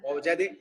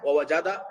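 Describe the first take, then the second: First: The word ends with an 'e' vowel. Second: The word ends with an 'a' vowel. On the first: The speaker calls it wrong. "জাদে বলা যাবে নাকি জাদা?" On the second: The speaker calls it right. "দাল কি সাকিন নাকি জবর? জবর।"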